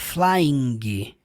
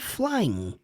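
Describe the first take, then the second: First: The word ends with an audible G sound. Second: The word ends on an N sound. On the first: The speaker calls it wrong. "você não pronuncia a letra G. Você não fala flying" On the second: The speaker calls it right. "você fala só flying. Termina no som do N"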